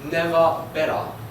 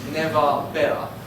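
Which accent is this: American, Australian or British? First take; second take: Australian; Australian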